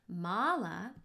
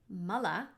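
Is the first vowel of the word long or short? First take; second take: long; short. First: The first vowel is a long ah sound. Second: The first vowel is a short uh sound. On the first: It means a prayer bead garland. "making it a long ah sound" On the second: It means bodily waste. "two short uh sounds"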